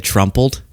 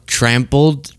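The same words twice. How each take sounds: First: "trumpled" starting just like "Trump"; Trump-like mispronunciation. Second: "trampled" with a clear A, as in "tram"; trampled pronunciation. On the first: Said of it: "it sounded like he said trumpled". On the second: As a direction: say "trampled" with an open A vowel. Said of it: "I know that was his accent". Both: Shown as a demonstration.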